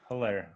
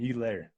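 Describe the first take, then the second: First: The name begins with a clear H sound. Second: The name begins with a vowel, no H sound. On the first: "I've always heard it Hilaire" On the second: "Do they just not pronounce the H"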